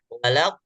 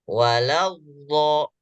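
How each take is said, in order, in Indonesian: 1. Konsonan akhir terputus secara tiba-tiba. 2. Konsonan akhir mengalir terus tanpa jeda. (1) "bo putus" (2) "Tapi bacanya walawo"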